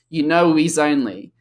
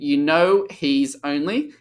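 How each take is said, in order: First: The words run together, with the h dropped. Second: The words are kept separate, with the h sounded. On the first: The speaker calls it right. "will now link because you have a consonant and you have a vowel" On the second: The speaker calls it wrong. "instead of saying"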